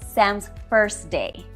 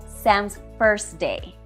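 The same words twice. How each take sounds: Both takes have the same delivery.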